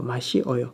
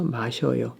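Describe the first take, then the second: First: The vowels 시 and 어 are said separately. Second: The vowels merge quickly into one syllable 셔. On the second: "If you pronounce 시어 quickly, uh, it will become 여"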